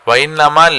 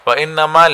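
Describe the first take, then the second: No difference in how they are said.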